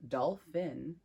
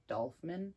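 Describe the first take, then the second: First: Dolphin said carefully as "dol-fin"; corrected pronunciation. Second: Dolphin slipped into "dolf-min"; slurred slip. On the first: Card reader correcting a slip, dolphin clearly as "dol-fin". Repeats the word correctly after stumble. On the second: Card reader stumbling over dolphin, saying "dolf-min". Stumbles on word, then says it right. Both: Real, not acted.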